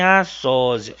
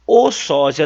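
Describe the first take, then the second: First: The article "a" set apart before sósia; stress on wrong article. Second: Loud "O" leading into sósia; stress on right article. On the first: Teacher ruling out the feminine form, stressed article. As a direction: lean on "a" in "a sósia". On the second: Teacher giving the correct gender, stressed article. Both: Shown as a demonstration. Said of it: "não tem a sósia".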